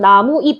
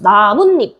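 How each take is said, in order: First: It has no linking sound before the last syllable. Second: It has the linking n sound before the last syllable. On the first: This is the North Korean form. "북한에서는 나무잎 해가지고 시옷이 없다" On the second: This is the South Korean form. "우리는 나뭇잎으로 발음하지만"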